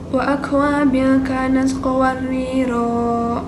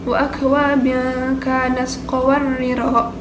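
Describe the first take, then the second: First: The final vowel of qawariro is long. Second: The final vowel of qawariro is short. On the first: The reading stops at this word. "Dibacanya panjang" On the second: The reading continues without stopping. "kalau dibaca pendek"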